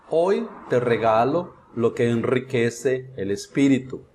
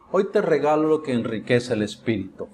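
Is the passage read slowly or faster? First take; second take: slowly; faster. First: It is read slowly with pauses at punctuation. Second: It is read at a faster, more fluent pace. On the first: "Pronunciado pausadamente" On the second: "vou aumentando a velocidade"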